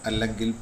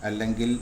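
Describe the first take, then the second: The two takes are said the same way.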